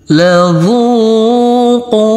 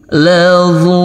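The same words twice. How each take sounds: First: The melody goes upward. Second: The melody goes downward.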